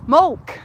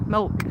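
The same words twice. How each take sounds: First: "Mulk" said loud and high with a short u, like mulch; "Mulk" with a short u, a bright test; trying the accent. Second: Said in the usual way. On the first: Shown as a demonstration. Tries the viewer's vowel for milk, checking it. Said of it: "Is that it?". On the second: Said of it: "I don't know how you say milk like that".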